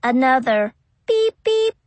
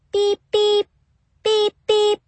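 First: Rising beep sound; imitated beep. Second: High, electronic keypad beeps; imitated beeps. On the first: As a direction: beep like a keypad. Keypad beeps again. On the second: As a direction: beep like a door keypad.

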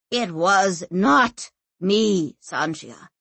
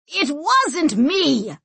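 First: Slow, spaced-out insistence; emphatic denial. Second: High, drawn-out shouted denial; shouting. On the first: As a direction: deny it word by word, dropping on the name. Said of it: "panting, and then said". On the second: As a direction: shout it slowly in protest. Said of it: "and shouted". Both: A narrator's reading.

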